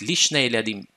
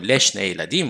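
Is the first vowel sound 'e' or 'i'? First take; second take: i; e. First: The first word begins with 'li'. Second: The first word begins with 'le'.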